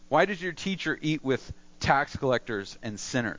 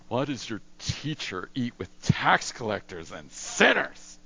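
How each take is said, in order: First: The question is asked in a neutral tone. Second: The question is asked in a disgusted tone.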